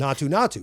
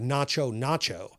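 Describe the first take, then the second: First: The middle consonant is a 't' sound. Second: The middle consonant is a 'ch' sound. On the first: This is how the original Telugu version says it. "they pronounce it as" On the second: This is how the Hindi dub says it. "it comes out more like Nacho Nacho"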